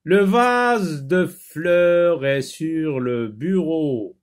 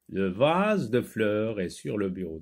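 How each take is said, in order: First: Very slow, loud, higher-pitched classroom reading; model reading aloud. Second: Said in the usual way. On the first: Shown as a demonstration. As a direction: stretch every word out for beginning readers. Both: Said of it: "Lis les phrases".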